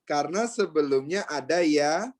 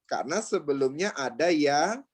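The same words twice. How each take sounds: The two takes are said the same way.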